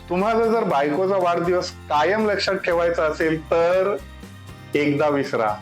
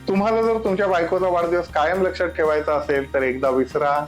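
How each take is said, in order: First: There is a pause before the final words. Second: It is said straight through without a pause. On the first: The advice lands as a joke. The speaker calls it right. "गमतीशीर उदाहरण सांगतो" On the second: The humor is lost. The speaker calls it wrong. "हेच वाक्य जर सलग बोललं तर"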